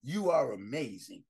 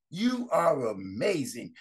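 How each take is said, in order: First: Soft and low, tender reassurance; quiet loving encouragement; warm affirmation. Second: You are amazing stretched slowly and firmly; deliberate, slowed-down You are amazing; slow emphatic affirmation. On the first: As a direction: say it softly to each listener. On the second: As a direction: lean into each word, slow. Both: Shown as a demonstration. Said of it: "I tell you every day".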